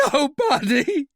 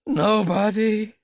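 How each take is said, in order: First: High, loud desperate denial; almost scream it out; near scream. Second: High, loud, slow; desperate denial. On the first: Royale denying to Talbot, almost screaming. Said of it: "His voice was almost a scream". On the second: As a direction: insist in fear. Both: Acted.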